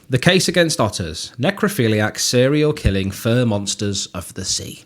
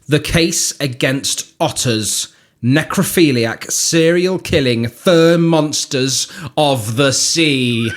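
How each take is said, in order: First: It is read in a plain, normal way. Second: It is read with dramatic attitude.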